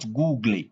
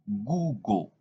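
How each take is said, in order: First: The ending does not sound like O. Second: The ending sounds like O. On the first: The speaker calls it wrong. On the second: The speaker calls it right.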